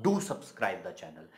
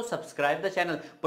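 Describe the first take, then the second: First: Slow, low, weighty "Do"; "Do subscribe the channel" with a long, stressed "Do"; emphatic do. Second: Said in the usual way. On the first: Shown as a demonstration. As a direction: stretch out "Do" with quiet insistence. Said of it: "जोर देके बोलूंगा". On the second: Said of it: "simple सा बोलूंगा".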